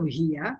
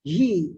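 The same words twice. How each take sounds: First: هي said "hi-ya"; two-syllable standard form. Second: "he" as one long "hee"; short Emirati form. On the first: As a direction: give هي a final -ya syllable. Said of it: "instead of هي". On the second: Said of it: "we will say he". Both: Shown as a demonstration.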